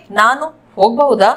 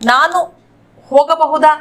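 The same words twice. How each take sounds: First: ಹೋಗಬಹುದಾ contracted to "hogbauda"; local colloquial pronunciation. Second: Said in the usual way. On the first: Shown as a demonstration. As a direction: drop the a after the g in ಹೋಗಬಹುದಾ. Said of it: "local accent में बोलेंगे". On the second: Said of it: "इसको हम local accent में बोलेंगे".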